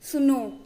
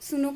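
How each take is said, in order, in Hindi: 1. आखिरी स्वर लंबा खींचा गया है, जैसे पुकारते समय। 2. आखिरी स्वर छोटा है, सामान्य तरीके से बोला गया। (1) "जैसे मैं किसी को आवाज लगा रही हूँ सुनो ... ये थोड़ा लंबा खिंचेगा" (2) "जब मैं सिर्फ सुनो कह रही हूँ तो इसमें कोई नॉर्मल"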